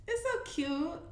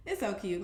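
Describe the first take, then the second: First: High, soft and doting; gushing coo. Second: Said in the usual way. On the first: Real, not acted. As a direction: swoon over how cute it is. Cooing over a newborn baby photo.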